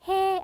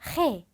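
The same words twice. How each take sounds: First: It starts with a soft, plain h sound. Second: It starts with a harsh, throat-tightened h sound. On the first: The speaker calls it wrong. "그냥 해 아니고요" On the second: The speaker calls it right. "목이 콱 조여지듯이"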